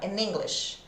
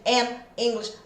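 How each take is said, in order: First: The two words are joined smoothly together. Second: The two words are said separately, not joined. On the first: The speaker calls it right. "Junta aqui, ó" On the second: The speaker calls it wrong. "parece que eu tô cansada falando? Não"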